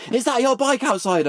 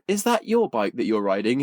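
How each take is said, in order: First: High-pitched mock shout; retold shout. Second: Said in the usual way. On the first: Charlie calls to strangers at the coffee shop, mock shouting. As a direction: imitate an excited shout without much volume. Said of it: "he just shouts". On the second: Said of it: "I'm like".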